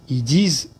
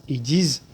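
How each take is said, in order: The two takes are said the same way.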